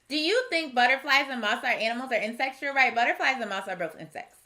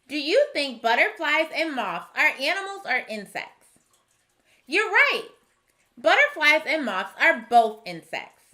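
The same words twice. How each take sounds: First: It is read choppily, without expression. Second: It is read smoothly, with expression.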